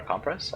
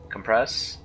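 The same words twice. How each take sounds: First: "compress" said COM-press, stress on the first syllable. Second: "compress" with the stress on "-press"; stress on second syllable. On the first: Unsure gamer tries COM-press second. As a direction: try the noun form, "compress" as COM-press. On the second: Unsure gamer tries com-PRESS first. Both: Shown as a demonstration. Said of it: "I don't know how to pronounce".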